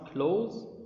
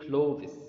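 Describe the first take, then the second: First: The word is said without a th sound. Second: The word is said with a th sound. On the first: The speaker calls it right. "Pronounce clothes" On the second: The speaker calls it wrong. "don't say clothes. Wrong. ... Don't pronounce th"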